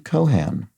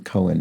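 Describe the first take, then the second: First: The surname starts with an audible H. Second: The surname starts with a silent H. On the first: The speaker calls it right. "pronounced with an aspirated H and an an rhyming with can" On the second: The speaker calls it wrong. "not pronounced the normal way with a silent H as you did"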